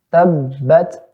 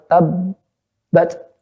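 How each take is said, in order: First: The final stop is held only very briefly. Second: The final stop is held for a long pause. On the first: The speaker calls it right. "Dia dijeda sejenak aja" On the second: The speaker calls it wrong. "jangan tabbat"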